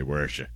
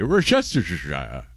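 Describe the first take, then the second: First: Worcestershire cut down to "wersha"; casual American short form of Worcestershire; American pronunciation. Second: WORCESTERSHIRE with every syllable, British style; put-on posh British Worcestershire; fancy British accent. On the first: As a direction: say Worcestershire quickly as lazy "WER-sha". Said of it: "say it like an American". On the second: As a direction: say Worcestershire grandly, ending in "shy-ah". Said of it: "Say it in a fancy or otherwise British". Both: Shown as a demonstration.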